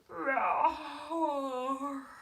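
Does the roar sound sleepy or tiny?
sleepy. The roar sounds sleepy and drowsy.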